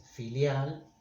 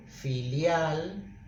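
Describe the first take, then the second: First: "filial" slowly, weight on "lial"; stress on the last syllable. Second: Said in the usual way. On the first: Shown as a demonstration. Teacher showing where the accent falls, stress on "lial". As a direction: lean on "lial" in "filial", slow. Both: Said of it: "el acento cae en lial".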